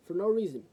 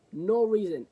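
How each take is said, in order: First: Said in the usual way. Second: "No reason" louder and higher, punched; stress on no reason. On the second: Shown as a demonstration. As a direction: hit "No reason" hard, indignant.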